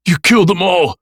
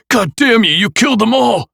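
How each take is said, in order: First: Loud, high, choked with anger; furious tearful shout. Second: Loud high raging cry; furious shout. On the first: Nick accusing the killer of his friends, furious. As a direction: yell it through angry tears. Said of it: "with furious tears of anger". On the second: Nick raging at the killer, screaming. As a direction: scream the curse through tears. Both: A narrator's reading.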